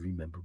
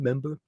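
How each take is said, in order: First: The word is said in full, with three syllables. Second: The first syllable is dropped, leaving two syllables. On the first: "We don't say remember" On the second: "Americans say that member"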